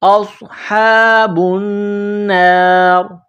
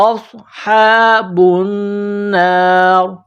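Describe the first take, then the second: No difference in how they are said.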